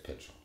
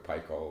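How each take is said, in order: First: The middle consonant is a ch sound. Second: The middle consonant is a k sound. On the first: The speaker calls it right. "but it's Pitchell" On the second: The speaker calls it wrong. "most people say pickle"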